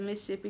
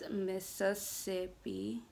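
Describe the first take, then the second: First: The S sounds are reduced, Southern style. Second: Both S sounds are clearly pronounced. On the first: This is how locals in the South say it. The speaker calls it wrong. "That's how we say it down in the South" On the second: This is the standard pronunciation. The speaker calls it right. "I know it's Mississippi. You gotta say two, both of the S's"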